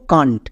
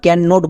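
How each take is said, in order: First: Can't run together, ending in 'nt'; joined contraction. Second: Can not with a full 'not'; uncontracted two words. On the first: Teacher models reading them together, can't in one syllable. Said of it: "একসঙ্গে উচ্চারণ করব can't". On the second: Teacher shows what not to say, can not in full. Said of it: "can not বলবো না". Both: Shown as a demonstration.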